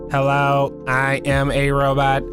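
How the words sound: The robot voice stays on one flat pitch. "stereotypical, There's no inflection in my tone"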